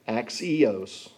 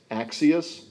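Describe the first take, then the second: First: Axios as ak-see-OSE, long o ending, falling; second word pronunciation. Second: Axios as AK-see-us, weak last syllable, rising; first word pronunciation. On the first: Preacher contrasting two Greek words, ak-see-OSE pronunciation. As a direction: say axios with a full "ose" last syllable. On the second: Preacher contrasting two Greek words, AK-see-us pronunciation. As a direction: say Axios with a short, unstressed "us" ending. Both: Shown as a demonstration. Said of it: "depending on how you say it".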